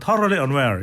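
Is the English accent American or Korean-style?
American. It is said with an American English accent. "미국식으로 다시 발음하면"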